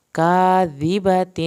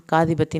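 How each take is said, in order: First: "کاذبۃ" slow and louder; slow recitation. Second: Said in the usual way. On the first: Shown as a demonstration. Teacher to students: slow recitation. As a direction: intone "کاذبۃ" as verse. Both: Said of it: "ظاہر ہوگا".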